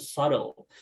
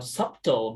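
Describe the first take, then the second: First: The b in the middle is silent. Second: The b in the middle is pronounced. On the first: The speaker calls it right. "turns out it's pronounced subtle" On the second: The speaker calls it wrong. "I thought that it was pronounced it, it was pronounced uh, subtle"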